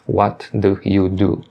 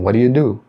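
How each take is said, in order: First: Each word is said clearly and separately. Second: The words are run together in fast speech. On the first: "eles não falam certinho" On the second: "Eles falam"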